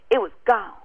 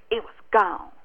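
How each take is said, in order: Both takes have the same delivery.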